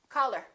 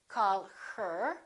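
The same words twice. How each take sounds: First: The h in her is dropped. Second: The h in her is clearly pronounced. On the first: The speaker calls it right. "we say" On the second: The speaker calls it wrong. "We don't say"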